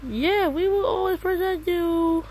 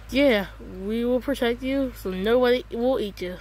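First: Much higher put-on voice, same promise; silly high voice. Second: Said in the usual way. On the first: Teammate promising protection in a silly high voice. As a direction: pitch the voice way up for a joke. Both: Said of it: "Why does your voice sound like that?".

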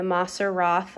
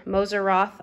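First: Moser Roth said as MAH-ser RAHTH, short ah vowels; first try at Moser Roth. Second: Moser Roth said as MOH-zer RAWTH, long o and a z sound; second try at Moser Roth. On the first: Vlogger unsure how to say a chocolate brand, first attempt, MAH-ser RAHTH. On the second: Vlogger retries the brand name, tentative MOH-zer RAWTH. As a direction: correct yourself to MOH-zer RAWTH, a little unsure. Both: Real, not acted. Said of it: "I don't know if I'm pronouncing that correctly".

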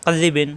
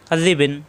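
The two takes are said the same way.

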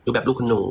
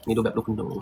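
First: Said in the usual way. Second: Put-on posh rich girl. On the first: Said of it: "ดูแบบ luxury หน่อย". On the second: Shown as a demonstration.

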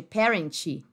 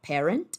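First: PARENT as "PEH-ren-chee"; wrong parent, added vowel. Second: PARENT ending on a clean T, rising; no vowel after the T of parent; English parent. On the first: Teacher showing what to avoid, Brazilianized parent. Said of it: "ao invés de parent". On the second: Teacher correcting learners, clean English parent. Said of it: "vai se falar parent". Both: Shown as a demonstration.

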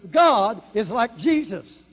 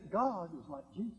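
First: God lifted and drawn out, slow and loud; slow emphatic preaching line; stress on God. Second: Softer, gentle repeat; quiet restatement. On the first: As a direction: lean hard on God. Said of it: "I emphasize that". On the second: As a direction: say it again quietly. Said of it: "Can I say it again?". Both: Real, not acted.

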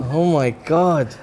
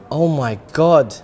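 Both takes have the same delivery.

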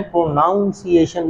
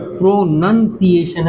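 First: Slow "प्रोनाउंसिएशन" with noun in the middle; mispronunciation. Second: Slow "प्रोनंसिएशन" with nun in the middle; correct pronunciation. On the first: Teacher rejecting the common form, slow mispronunciation. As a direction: say "प्रोनाउंसिएशन" slowly, noun not nun. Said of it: "प्रोनाउंसिएशन नहीं". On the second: Teacher insisting on the right word, slow correct pronunciation. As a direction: say "प्रोनंसिएशन" slowly, nun not noun. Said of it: "प्रोनंसिएशन है". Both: Shown as a demonstration.

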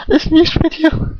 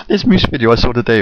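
First: Squeaking the words out through real laughter; can't get it out for giggling; laughing. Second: Said in the usual way. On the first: Real, not acted. First try breaks into laughter.

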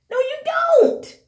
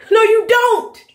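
First: Very high, slow sing-song no, you don't; mock sing-song no. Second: Flat denial. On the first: Vlogger taunting the stars, in a high slow sing-song. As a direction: float it up high and drag it out teasingly. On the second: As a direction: shut it down hard. Rejecting the stars' hypocrisy. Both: Real, not acted.

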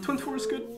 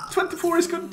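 First: Said in the usual way. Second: Excited. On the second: Real, not acted. Repeats number choice, first take.

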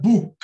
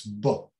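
First: Book with a long tense oo; stretched boo-k; wrong book. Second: Book short and soft; clipped relaxed book; right book. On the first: Teacher showing the mistake. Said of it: "It's not book". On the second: Teacher modelling the correct book. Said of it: "It's book". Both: Shown as a demonstration.

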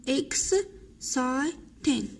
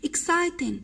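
First: Exciting stretched out very slowly, syllable by syllable; slow drilled word. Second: Said in the usual way. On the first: Shown as a demonstration. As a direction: say Exciting slowly for pupils to repeat. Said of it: "slow syllable-by-syllable repeat". (نطق بطيء جدا مقطع بمقطع) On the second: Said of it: "teacher models the word".

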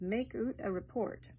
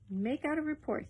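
First: Scots "make oot a report", with "oot" for out; broad Scots vowel in "oot"; Scots accent. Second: Said in the usual way. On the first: Acted. Scots line, then said standard.

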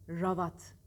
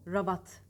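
No difference in how they are said.

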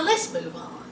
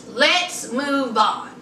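First: Whispered, rising a little; breathy whisper that lifts at the end; hushed aside. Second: Drawn out, falling firmly; slow, low, settled fall; slow and lower. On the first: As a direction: slip it out under your breath. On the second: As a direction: take your time, lower and final. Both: Shown as a demonstration.

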